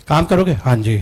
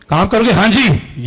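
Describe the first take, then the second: First: Said in the usual way. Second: Energetic reply. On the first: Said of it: "ये वाला कौन सा चाहिए?". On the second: Shown as a demonstration. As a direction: answer with energy and readiness. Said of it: "energetic चाहिए कि".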